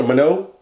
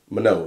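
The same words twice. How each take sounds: First: Minot rising, asked like a question; testing the name, pitch rising on Minot; unsure question. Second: Minot said lower and falling, settled; decide on Minot, drop it down; settled statement. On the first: Reading shop list aloud, unsure, rising tone. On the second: Reading shop list to viewers, settling with falling tone. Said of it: "It's probably Minot". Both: Real, not acted.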